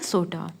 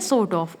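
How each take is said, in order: First: The words blend into one short word. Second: Both words are said fully and separately.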